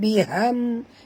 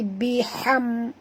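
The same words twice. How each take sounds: First: The h sound is plain and soft. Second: The h sound is sharp and breathy. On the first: The speaker calls it wrong. "bukan biham" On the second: The speaker calls it right. "ha pedas"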